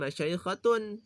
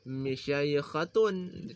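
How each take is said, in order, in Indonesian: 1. Vokal pertama setelah m adalah a. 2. Vokal pertama setelah m adalah i. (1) "dengan fathah mim" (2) "kasrahnya mim"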